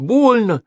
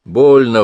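First: Put-on very high, plaintive little boy on БОЛЬНО; pained child's complaint. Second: Dismissive echo. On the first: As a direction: whine it high like a hurt child. Boy complains the injection hurts. (жалобный детский возглас) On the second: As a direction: throw the complaint back, brushing it off. Medic dismisses boy's complaint. (громкая пренебрежительная передразнивающая реплика) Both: A narrator's reading.

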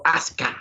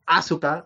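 First: "Asuka" squeezed to AS-ka, no U; gringo pronunciation. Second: "Asuka" with the middle U clearly sounded; Asuka with full U. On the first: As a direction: say "Asuka" in two syllables, as AS-ka. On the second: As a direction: say "Asuka" in three syllables, a-SU-ka. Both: Shown as a demonstration. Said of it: "o como dicen los gringos".

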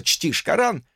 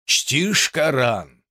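First: Said in the usual way. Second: Slow, heartfelt question; soulful. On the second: Acted. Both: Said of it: "проникновенно спросил суфий".

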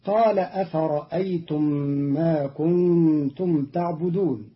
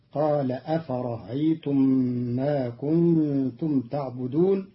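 First: أفرأيتم with a full second hamza; standard reading. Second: أفرأيتم with the hamza softened; Qalun's reading. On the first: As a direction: say أفرأيتم with a clear glottal stop. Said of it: "قرأ قالون كلمة أفرأيتم". (أفرأيتم بتحقيق الهمزة) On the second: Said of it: "بتسهيل الهمزة الثانية بين بين". (تسهيل الهمزة في أفرأيتم) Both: Shown as a demonstration.

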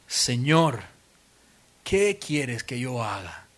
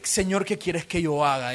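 First: Low, slow, hushed plea; a frightened Saul asking in surrender; trembling, fearful. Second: Said in the usual way. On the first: Acted. Preacher voices a trembling Saul answering the Lord, low and slow. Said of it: "temblando y temeroso". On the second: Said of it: "era, Me rindo".

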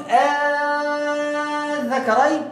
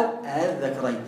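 First: "آه الذكرين" with the first vowel held very long on one note; sustained, higher recited vowel opening "آه الذكرين"; long madd recitation. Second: "آه الذكرين" with a short, softened second hamza and no lengthening; lower, brief tasheel take of "آه الذكرين"; short eased hamza. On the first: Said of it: "يعني تقول". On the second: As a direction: say "آه الذكرين" low and soft, gliding quickly through the first vowel. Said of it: "أو". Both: Shown as a demonstration.

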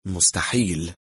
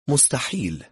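First: Composed, even echo of a single word; calm. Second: Higher, mocking disbelief; amused dismissal. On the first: Intruder echoes the woman's word, staying calm. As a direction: repeat it coolly, keeping composure. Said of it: "محافظا على هدوئه". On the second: Woman laughs off his police claim, amused dismissal. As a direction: brush it off as laughable. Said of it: "ضحكت". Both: A narrator's reading.

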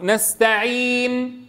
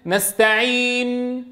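First: "نستعين" with the نون stilled and the lips rounded at once; slow "نستعين", rounding right after the still نون; correct ishmam. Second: "نستعين" with the نون still voiced while the lips round; slow "نستعين", voicing the نون into the rounding; wrong ishmam. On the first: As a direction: show the right immediate rounding. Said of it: "بعيد تسكين الحرف". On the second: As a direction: show the error of sounding the نون with the rounding. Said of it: "فمن الخطأ أن تقول". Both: Shown as a demonstration.

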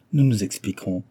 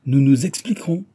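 First: Said in the usual way. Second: Higher, louder threatening echo; menacing. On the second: A narrator's reading. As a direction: throw the words back as a threat. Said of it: "répéta mister Big d'un air menaçant". (d'un air menaçant)

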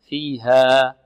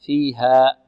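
First: فيها with the final alif held two counts and fading softly; soft two-count ending. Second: فيها ending in a sharp hamza catch; ending on a glottal stop. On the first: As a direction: let the alif of فيها trail off gently. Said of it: "لا، فيها". (مد الألف حركتين دون همز) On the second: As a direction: cut the final alif of فيها off with a glottal stop. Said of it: "آه، خطأ". (إنهاء الألف بهمزة خطأ) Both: Shown as a demonstration.

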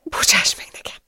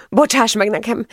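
First: Tearful, breath-only apology; whispered plea. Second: Higher-voiced, distressed apology; tearful plea. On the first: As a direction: whisper it, begging forgiveness. (suttogó, sírós bocsánatkérés) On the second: Sobbing woman begs forgiveness. (hangos, sírós bocsánatkérés) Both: A narrator's reading.

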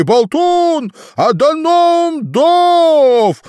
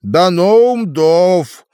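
First: Громко, протяжно «Даноум Дов»; прокричать «Даноум Дов» от счастья; ликующий рёв. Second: Медленно, нараспев, драконий язык; произнести «Даноум Дов» протяжно; торжественно. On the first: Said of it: "взревел обезумевший от радости". (восторженный крик) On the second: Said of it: "перевёл Болтун". (торжественное имя) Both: A narrator's reading.

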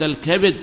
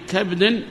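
First: الكبد as "al-kabid"; short i after b in الكبد; kasra form. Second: كبد as "kabdin"; no vowel after b in كبد; sukun form. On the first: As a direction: say الكبد with two syllables, ka-bid. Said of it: "أشار إلى لغتين". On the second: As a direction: say كبد slowly as kab-din. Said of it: "الأول سكن". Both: Shown as a demonstration.

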